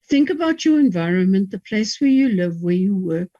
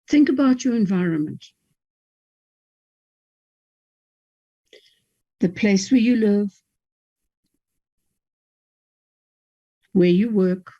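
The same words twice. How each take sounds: First: It is read quickly with no clear pauses. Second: It is read slowly with pauses between phrases. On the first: The listener is overwhelmed and cannot take it in. The speaker calls it wrong. "By now you're overwhelmed" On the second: The listener has time to think about each instruction. The speaker calls it right. "you've got to read it slowly. One instruction, take a pause"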